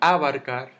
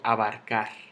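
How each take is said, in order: First: The stress falls before the last syllable. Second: The stress falls on the last syllable. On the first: The speaker calls it wrong. "yo no digo abarcar" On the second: The speaker calls it right. "En car. ... y yo digo abarcar"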